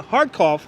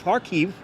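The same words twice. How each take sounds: First: Kharkov said the Russian way, stress on KHAR; Kharkov, first syllable hard and stressed; Russian name Kharkov. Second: Kharkiv with the Ukrainian ending -kiv; Kharkiv, correcting to the Ukrainian form; Ukrainian name Kharkiv. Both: Shown as a demonstration.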